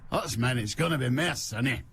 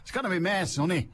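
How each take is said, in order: First: Put-on amateur Scottish accent led in by Hoots Mon; pretend Scottish accent. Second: Quick, higher Scottish forecaster, slipping into Irish; badly faked Scottish accent, sounds Irish; attempted Scottish accent. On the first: Host retries the weather forecast, pretend Scottish accent. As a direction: have another go at faking Scottish. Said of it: "if I wanna do a Scottish accent". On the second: Host mimics a weather forecaster, botched Scottish accent. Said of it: "that sounds like a Scottish weather forecast".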